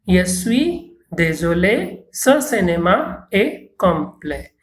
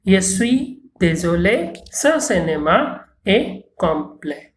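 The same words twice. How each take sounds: First: Slow, careful French for learners to repeat; unhurried teacher demo, word by word; slow model reading. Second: Said in the usual way. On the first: Shown as a demonstration. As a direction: say it slowly so the class can echo. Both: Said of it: "avec, euh, après moi".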